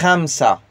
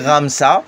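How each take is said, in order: First: The first sound is scraped in the throat. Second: The first sound is a plain, unscraped R. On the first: The speaker calls it right. "mais tu racles le R. C'est Khamsa" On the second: The speaker calls it wrong. "comme si tu dis Ramsa"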